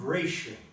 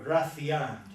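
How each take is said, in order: First: The name is pronounced the English way. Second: The name is pronounced the Spanish way.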